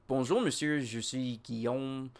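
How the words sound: It is said roughly in a Quebec French accent.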